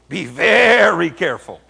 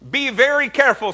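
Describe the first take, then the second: First: It is said in a dark, menacing tone. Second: It is said in a plain, neutral tone.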